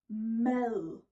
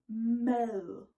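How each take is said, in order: First: The word ends in a soft, buzzing th-like sound. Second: The same.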